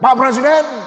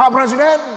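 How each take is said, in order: First: It is said in a harsh, rough tone. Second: It is said in a harsh, rough tone.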